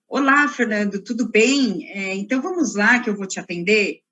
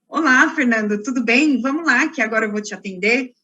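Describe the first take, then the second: First: It is said flatly, without a smile. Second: It is said warmly, with a smile.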